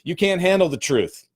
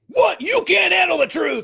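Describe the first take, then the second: First: It is said calmly, without intensity. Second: It is said with explosive, intense energy.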